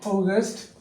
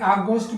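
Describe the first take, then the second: First: The first vowel is a rounded 'aw' sound. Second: The first vowel is an open 'ah' sound. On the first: The speaker calls it right. "বলবেন অগস্ট" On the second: The speaker calls it wrong. "এটাকে আগস্ট বলবেন না"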